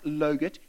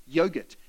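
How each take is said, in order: First: "logurt" with an L for the Y; wrong-word demo. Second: Said in the usual way. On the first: Shown as a demonstration. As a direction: quote the slip "logurt", L first. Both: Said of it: "No, not logurt".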